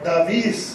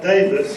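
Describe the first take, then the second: First: The name is said the local Spanish way. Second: The name is said the plain English way.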